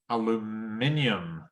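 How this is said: It is said with a British pronunciation. "British English"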